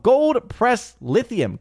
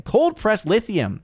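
First: "gold" said with a G in "gold press lithium"; misread first word. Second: "Cold" said with a K sound in "Cold press lithium"; high, slow correction, K on "Cold"; corrected first word. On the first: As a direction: read "gold press lithium" high and slow, G on "gold". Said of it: "I thought you were misspelling it". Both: Real, not acted.

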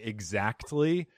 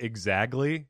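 First: "exactly" attempted with its t sounded; careful, drawn-out "exactly". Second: "exactly" said as "exagly"; "exactly" slurred into "exagly"; accented mispronunciation. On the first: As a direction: say "exactly" slowly, trying for the t. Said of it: "I can't even say exactly". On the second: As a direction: drop the t in "exactly" and soften the k to a g. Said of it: "So I say it more like". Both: Shown as a demonstration.

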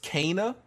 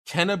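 First: Kana with a long "ay", as "KAY-nuh"; corrected pronunciation. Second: Kena as it looks, with a short "eh" vowel; assumed pronunciation. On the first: Telling co-hosts the real name, Kana as "KAY-nuh". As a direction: say Kana to rhyme with "gainer". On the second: Telling co-hosts the assumed name, Kena as "KEN-uh". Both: Shown as a demonstration. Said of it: "is actually pronounced Kana".

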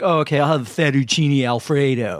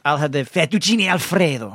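First: Imitating mom's slow mockery of plain pronunciation; mocking. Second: Imitating mom's over-the-top Italian accent; hammed-up Italian on "fettuccine Alfredo"; extreme foreign-food accent. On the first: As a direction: drag it out to make fun. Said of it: "but then she mocks me". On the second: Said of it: "when you put it to that extreme".

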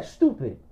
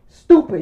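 First: Lower, softer retold insult; muted insult. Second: Loud, high retold insult; exasperated insult. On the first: Friend scolding him for watching, muted disgust. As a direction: drop it down in quiet disgust. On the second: Friend scolding him for watching, exasperated. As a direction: throw it out sharply, pitched up.

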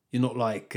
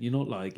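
First: Accidentally posh English; a touch of posh in the vowels; posh accent. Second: Said in the usual way. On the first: Real, not acted. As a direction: slip into a slightly posh accent. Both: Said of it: "I sounded really posh then".

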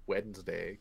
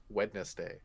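First: "Wednesday" as WENZ-day, first D silent; usual Wednesday. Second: "Wednesday" with every letter sounded, WED-nes-day; spelled-out Wednesday. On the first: Host shows what he doesn't say, WENZ-day for "Wednesday". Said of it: "I don't say Wednesday". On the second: Host insists on his way, "Wednesday" said as spelt. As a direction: sound all the syllables of "Wednesday". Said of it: "Just like I don't say". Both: Shown as a demonstration.

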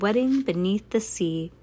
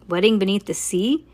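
First: Said in the usual way. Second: Rising, disbelieving question; incredulous, ending on a rise; incredulous echo. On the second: A narrator's reading. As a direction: throw the title back as a question. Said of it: "She yelled".

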